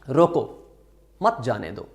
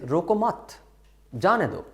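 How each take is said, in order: First: The break comes right after the first word. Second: The break comes right after the second word.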